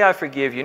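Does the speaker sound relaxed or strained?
relaxed. It is said lightly in a relaxed, easygoing tone. The offense is truly no problem. "it didn't sound like, hey, I forgive you. No problem"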